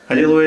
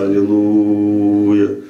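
First: The voice resonates high, in the head. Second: The voice resonates low, in the chest. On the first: "Откуда вибрация идет? Из головы" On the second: "я вот из сердца"

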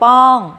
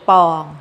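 First: The syllable is said on a falling tone. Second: The syllable is said on a level mid tone. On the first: "ไม้โท" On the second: "คำว่าปองนะคะเป็นเสียงสามัญ"

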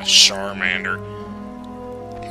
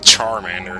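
First: The name is said in a fancy, advert-like way. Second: The name is said in a plain, ordinary way. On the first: The speaker calls it wrong. "what is this, a shampoo commercial?" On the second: The speaker calls it right. "I'm pretty sure it's actually Charmander"

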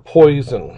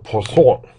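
First: The name is said with an English pronunciation. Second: The name is said with a French pronunciation. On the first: The speaker calls it wrong. "not Poisson" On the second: The speaker calls it right. "It's French"

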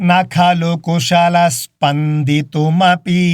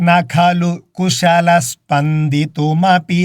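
Both takes have the same delivery.

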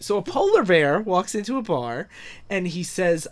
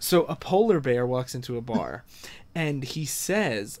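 First: It is said in his normal voice. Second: It is said in a put-on character voice.

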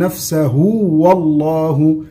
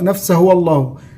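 First: The vowel after the h is lengthened. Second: The vowel after the h is cut short. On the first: The speaker calls it right. "نثبت الواو الصغيرة المادية دي بعد الهاء" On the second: The speaker calls it wrong. "إيه الخطأ؟"

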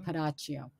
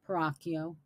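First: The surname is said with an Italian pronunciation. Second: The surname is said with an American pronunciation. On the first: This is the name's original pronunciation. The speaker calls it right. "It's really Peracchio" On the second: This is how Americans say the name. The speaker calls it wrong. "Peracchio is the American pronunciation"

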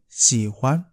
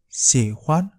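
Both takes have the same delivery.

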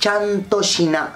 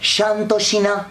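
First: The word begins with a sharp 'ch' sound. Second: The word begins with a soft 'sh' sound. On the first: This is how people normally say it. The speaker calls it right. "lo normal es decir Chantoshina" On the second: This is how the character says it. The speaker calls it wrong. "El personaje dice Shantoshina"

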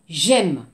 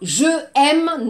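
First: The vowel of je is dropped and joined. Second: The vowel of je is said separately. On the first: The speaker calls it right. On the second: The speaker calls it wrong.

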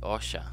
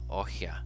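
First: The middle consonant is an sh sound. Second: The middle consonant is a breathy h sound. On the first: This is the other dialect's form. "it becomes osha in this dialect" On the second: This is the South Central dialect form. "in South Central dialect, when if you want to say forest, you say ohia"

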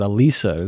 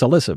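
First: The name is said in an Italian-style way. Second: The name is said in its ordinary English way. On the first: "I pronounce it Alisa. This like romantic Italian" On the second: "it's Alyssa"

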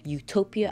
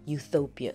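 First: The name is said without a 'th' sound. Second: The name is said with a 'th' sound. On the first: The speaker calls it right. "instead of saying Utopia" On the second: The speaker calls it wrong. "I invented her name with adding a TH"

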